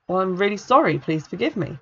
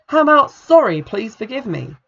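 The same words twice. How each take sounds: First: Said in the usual way. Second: Sharp, loud start, then clipped; mock demand. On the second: A narrator's reading. Kathy demanding Jill apologise, sharp and louder. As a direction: snap the apology out as an order.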